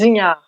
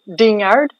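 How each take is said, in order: First: The name is pronounced with French sounds. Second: The name is pronounced with English sounds. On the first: "In French, it's" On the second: "In English, it's uh"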